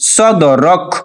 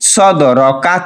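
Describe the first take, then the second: First: The final vowel is dropped, ending on a consonant. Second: The word ends with a final vowel sound.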